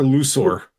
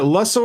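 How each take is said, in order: First: First vowel of Lusor as in "loose"; Lusor as LOO-sor. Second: First vowel of Lusor as in "luck"; Lusor as LUH-sor. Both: Shown as a demonstration. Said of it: "Is it Lusor or Lusor?".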